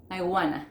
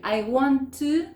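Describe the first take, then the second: First: WANT TO merged into WANNA; "wanna" with no T, one falling word; reduced form. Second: WANT TO in two slow, separate words; "want to" drawn out, louder and higher; full form. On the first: Teacher answering with the native short form, WANNA run together. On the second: Teacher quizzing learners with the long form, WANT TO fully pronounced. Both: Shown as a demonstration. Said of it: "¿cómo es?".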